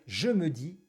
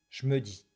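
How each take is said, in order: First: The e vowels are fully pronounced. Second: The e vowels are dropped. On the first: "Au lieu de dire" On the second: "ne prononce pratiquement jamais les E"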